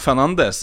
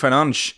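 First: The name is said with a Norwegian-style pronunciation. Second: The name is said with a Portuguese-style pronunciation. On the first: The speaker calls it wrong. "det er jo egentlig feil å si Bruno Fernandes" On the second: The speaker calls it right. "i Portugal så er det jo Fernandes eller noe sånt"

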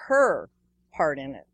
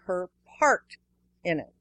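First: The word part is not stressed. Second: The word part is stressed. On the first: The speaker calls it wrong. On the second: The speaker calls it right.

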